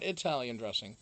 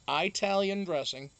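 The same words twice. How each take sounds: First: It is said with the speaker's usual pronunciation. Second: It is said with the local regional pronunciation. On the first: This is how the speaker normally says it. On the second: This is how people here say it.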